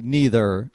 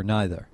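First: "neither" with a long ee in the first syllable; NEE-ther pronunciation. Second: "neither" with an eye sound in the first syllable; NYE-ther pronunciation. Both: Shown as a demonstration. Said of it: "two ways to say".

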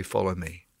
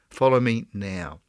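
First: Soft whispered follow me, lower and hushed; whispered call. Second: Said in the usual way. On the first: Retold or imitated. Preacher voicing God calling the listener, whispered. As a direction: breathe "Follow me." as a whispered invitation.

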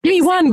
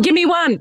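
First: Said in the usual way. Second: Higher, eager teasing plea; coaxing "Give me one" pitched up; playful pleading. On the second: Real, not acted. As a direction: beg for a spoiler, playfully.

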